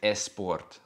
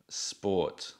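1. Una vocal extra, la e, va antes de la s. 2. La palabra empieza directamente con el sonido s. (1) "no es sport" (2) "la palabra sport"

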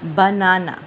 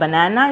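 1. यह शब्द ब्रिटिश लहजे में कहा गया है। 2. यह शब्द अमेरिकी लहजे में कहा गया है। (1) "हमने ब्रिटिश को फॉलो करना है" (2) "बनाना इज अमेरिकन प्रोनाउंसिएशन"

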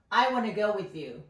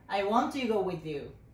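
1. Want toは短縮されて1語のwannaになる。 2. Want toは2語としてそのまま言う。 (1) "短くなってwanna ってよくなるのでwanna でも読んでおきましょうね。" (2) "ここのwant to のところが"

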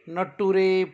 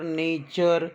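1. शेवट 'too-reh' असा म्हटला जातो. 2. शेवट 'cher' असा म्हटला जातो. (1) "असं ना वाचता" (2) "TUREला चर म्हणून"

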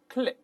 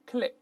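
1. 元音短促地发。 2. 元音短促地发。

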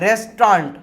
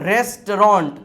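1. તે બ્રિટિશ અંગ્રેજી ઉચ્ચાર સાથે બોલાય છે. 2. તે અમેરિકન અંગ્રેજી ઉચ્ચાર સાથે બોલાય છે. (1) "બ્રિટિશ અંગ્રેજી પ્રમાણે" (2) "અમેરિકી અંગ્રેજી પ્રમાણે"

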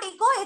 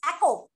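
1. पहले स्वर को गैर-मानक ध्वनि दी गई है। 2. पहले स्वर को सामान्य ध्वनि दी गई है। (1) "It's not echo" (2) "it's echo. Sound of E is always"

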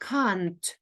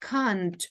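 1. Це вимовляється як одне скорочене слово. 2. Це вимовляється як одне скорочене слово.

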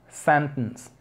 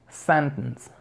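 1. La t se reemplaza por una parada glotal. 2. La t se reemplaza por una parada glotal.

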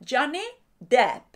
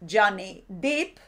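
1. La vocal del apellido es abierta, con la boca bien abierta. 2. La vocal del apellido es cerrada, como 'ee'. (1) "tenéis que abrir la boca como para hacer una A, pero hacéis una E" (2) "pues decís Johnny Profundo"

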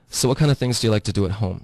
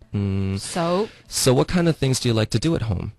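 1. 这句话说得很快。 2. 这句话说得比较慢。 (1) "差不多是我对这是一个正常的语速" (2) "其实我刚刚说的这个速度也是稍微慢一些的"

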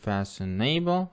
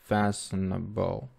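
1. Ударение падает на суффикс в конце. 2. Ударение падает на первый слог. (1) "не надо говорить fashionable" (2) "нужно также оставить ударение на fa"

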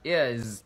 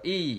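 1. Âm phụ âm cuối được giữ lại. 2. Âm phụ âm cuối bị bỏ đi. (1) "chúng ta đọc là is" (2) "chứ không đọc là E"

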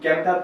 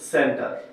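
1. শব্দটি একটি কঠিন ক ধ্বনি দিয়ে শুরু হয়। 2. শব্দটি একটি নরম স ধ্বনি দিয়ে শুরু হয়। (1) "এই অক্ষরটা আমরা কি ক্যান্টার পড়বো না" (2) "সি এর পরে ই আছে তাই আমরা কি নিব সি এর জন্য স নিব"

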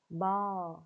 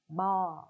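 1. Từ này được phát âm theo giọng Mỹ. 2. Từ này được phát âm theo giọng Mỹ.

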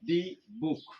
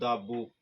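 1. 'the' শব্দে 'ee' স্বরধ্বনি আছে। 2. 'the' শব্দে 'uh' স্বরধ্বনি আছে। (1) "এমনটি কিন্তু হবে না।" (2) "তাহলে আমরা বলবো দা বুক"

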